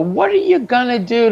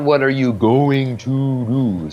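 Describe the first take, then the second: First: Going to is reduced to gonna. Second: Going to is said in full. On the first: The speaker calls it right. "what are you gonna do tomorrow? Right?" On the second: The speaker calls it wrong. "Not what are you going to do"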